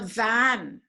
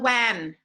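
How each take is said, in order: First: The word starts with a clear V. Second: The word starts without a clear V. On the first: The speaker calls it right. "You get on a" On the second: The speaker calls it wrong. "You don't get on a"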